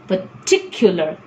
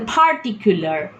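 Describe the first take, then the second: First: The t in the middle is strongly aspirated. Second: The p at the start is strongly aspirated. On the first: The speaker calls it right. "I need to tell particular. Particular because T is another phoneme which gets an aspiration" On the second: The speaker calls it wrong. "I cannot tell particular"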